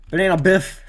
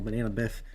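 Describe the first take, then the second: First: Hyped name call. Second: Said in the usual way. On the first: Acted. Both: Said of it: "should have put on the name reel".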